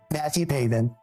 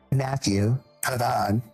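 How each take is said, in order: First: The surname is said with an American pronunciation. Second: The surname is said with a French pronunciation. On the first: "we're in America. It's Pavin" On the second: "as they like to say in Frenchland"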